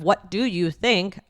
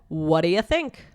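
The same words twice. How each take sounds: First: Every word is said fully and separately. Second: The first words blur together into a reduced form. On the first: "Instead of" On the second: "I said"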